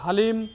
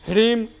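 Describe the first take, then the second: First: It begins with h, a vowel, then l. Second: It begins with h followed directly by r. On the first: "बहुत सारे लोग हलीम तो ह्रीम तो रीम तो ऐसे बोलते हैं" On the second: "बहुत सारे लोग हलीम तो ह्रीम तो रीम तो ऐसे बोलते हैं"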